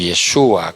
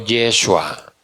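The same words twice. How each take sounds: First: The stress is on the middle syllable. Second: The stress is not on the middle syllable.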